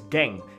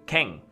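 First: The word begins with a voiced g sound. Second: The word begins with a voiceless k sound. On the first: "G-A-N-G would be pronounced as Gang" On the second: "K-A-N-G would be Kang"

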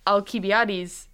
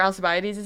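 First: The name is said with Greek pronunciation. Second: The name is said with English pronunciation. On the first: "if I started saying Alcibiades" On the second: "that's not how you pronounce it in Greek"

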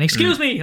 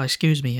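First: It is called out loudly, like a shout. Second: It is said softly, without shouting. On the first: The waiter is hailed across a noisy room. The speaker calls it wrong. "I just went, excuse me, like that" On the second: The waiter is addressed politely up close. The speaker calls it right. "You can go like, oh, excuse me"

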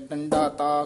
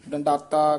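First: A slight break comes before the final syllable. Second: It is said as one unbroken word.

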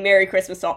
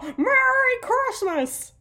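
First: It is said flatly, without energy. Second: It is shouted with excited energy.

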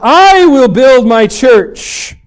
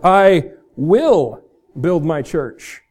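First: The stress is on the word I. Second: The stress is on the word will.

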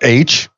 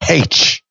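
First: The letter name begins with a vowel sound. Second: The letter name begins with an h sound. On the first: "with this just an A sound" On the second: "In the UK, you say H. With the ha sound"

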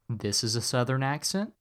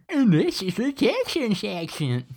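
First: It is said in a Southern accent. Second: It is said in a Texan accent.

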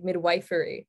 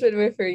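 First: The middle syllable sounds like the word 'wife'. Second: The middle syllable does not sound like 'wife'. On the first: The speaker calls it wrong. "some people think it's like midwifery, right? Because it's like midwife, but no" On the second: The speaker calls it right. "it is midwifery"

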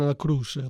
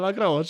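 First: It is said in a Neapolitan dialect. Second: It is said in a Calabrian dialect.

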